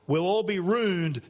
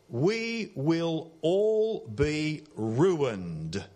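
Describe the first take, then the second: First: It is said contracted in broad Australian. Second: It is said slowly in standard English.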